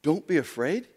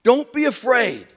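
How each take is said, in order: First: Softer, rising disbelief; incredulous echo. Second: Slow, louder reassurance; firm command. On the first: Preacher doubting Jesus's words, soft and rising. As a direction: repeat it as if it's absurd. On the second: Jesus telling disciples not to fear, firm and slow. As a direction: say it as a steady order. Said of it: "Don't be afraid? Really?". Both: Shown as a demonstration.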